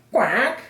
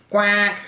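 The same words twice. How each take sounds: First: High quack rising like a question; questioning duck quack. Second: High, loud duck quack. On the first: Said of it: "asked the duck". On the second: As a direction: answer with a raised quack. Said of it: "The duck answered". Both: A narrator's reading.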